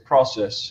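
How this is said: The word is said in an American accent. "in America you say process"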